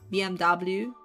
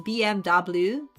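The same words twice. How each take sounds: First: The letters are named with English letter names. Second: The letters are named with English letter names.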